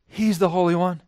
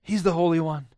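The two takes are said the same way.

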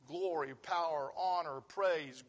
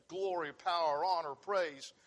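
The two takes are said the same way.

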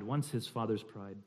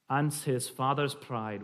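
First: Said in the usual way. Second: Slow Scottish verse line; slight Scottish accent. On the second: Shown as a demonstration. Reading a Scots poem to the group, slight Scottish accent. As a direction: linger over it in light Scots. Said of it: "a slight Scottish accent".

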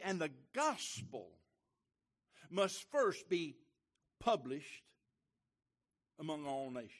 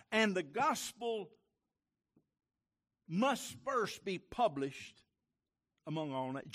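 First: Each word slow and weighted, first stressed; slow emphatic reading. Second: Higher, louder, very slow with must stressed; louder slower reread. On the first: Preacher reading the verse to the church, slow and emphatic. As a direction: read it deliberately for the congregation. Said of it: "Did you get that?". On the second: Preacher rereading the verse louder for inattentive listeners, emphatic. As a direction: hammer it home this time. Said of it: "Let's try it again". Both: Shown as a demonstration.

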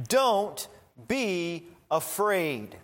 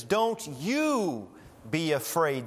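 First: Said in the usual way. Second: "you" pushed up and leaned on, then "be afraid" falls away; stress on YOU. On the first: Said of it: "That's how it reads in the original". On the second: Shown as a demonstration. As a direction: hit "you" as the emphatic word, like "Don't YOU be afraid". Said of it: "the emphatic you or ye".

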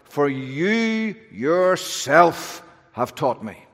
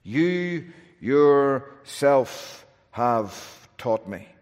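First: YOU drawn out slow and raised, then yourself; emphatic. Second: "You yourself" stretched very slowly with weight on "You"; stress on YOU. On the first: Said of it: "Hebrews very emphatic". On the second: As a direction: hammer "You" slowly, then let "taught me" fall. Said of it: "It stresses God's participation". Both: Shown as a demonstration.

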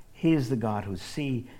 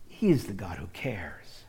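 First: Said in the usual way. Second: Whispered, tender and hushed; hushed tender reassurance. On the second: Acted. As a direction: breathe it out like a secret. Repeated line, second whispered.

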